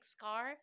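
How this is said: The final r sound is clearly pronounced. "In America, like we say scar"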